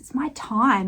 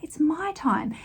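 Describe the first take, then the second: First: The stress is on the word time. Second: The stress is on the word my.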